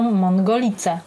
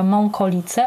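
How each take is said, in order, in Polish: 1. Po dźwięku 'ng' następuje dźwięk 'g'. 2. Po samogłosce nosowej następuje dźwięk 'k'. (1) "a wszyscy mówią" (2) "która się nazywa"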